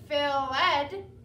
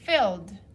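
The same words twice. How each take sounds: First: The ending is an extra syllable, ed. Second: The ending is only a d sound. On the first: The speaker calls it wrong. "So this word isn't" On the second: The speaker calls it right. "it only makes a d sound at the end"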